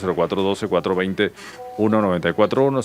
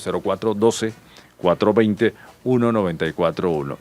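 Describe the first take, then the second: First: The number is read at a quick pace. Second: The number is read at a slow pace. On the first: "a veces dicen que lo digo muy rápido" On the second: "se lo voy a repetir lentamente"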